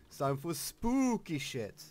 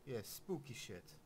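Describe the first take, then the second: First: Louder, excited villain glee; gleeful shout. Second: Softer, murmured aside; hushed. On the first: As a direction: announce it with wicked glee. Loud gleeful announcement, then hushed repeat. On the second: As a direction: drop it to a low murmur. Hushed repeat after loud take. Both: Pretend.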